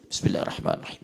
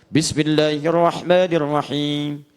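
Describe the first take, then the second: First: It is recited quietly, almost under the breath. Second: It is recited loudly and forcefully.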